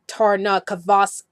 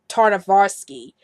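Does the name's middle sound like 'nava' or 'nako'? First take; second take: nako; nava. First: The middle of the name sounds like 'nako'. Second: The middle of the name sounds like 'nava'. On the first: The speaker calls it right. "it's really Tarnakovsky" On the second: The speaker calls it wrong. "I pronounced his last name as Jendi Tarnavarsky"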